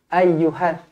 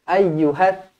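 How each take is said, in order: No difference in how they are said.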